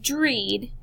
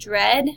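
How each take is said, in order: First: The vowel is a long E sound. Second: The vowel is a short E sound. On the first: The speaker calls it wrong. "It's not dreed" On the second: The speaker calls it right. "it makes the short E for this example"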